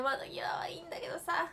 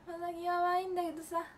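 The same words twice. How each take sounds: First: Whispered, voiceless grumble. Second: Said in the usual way. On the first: Real, not acted. Whispering a sulky complaint to viewers. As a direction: mutter the complaint under her breath.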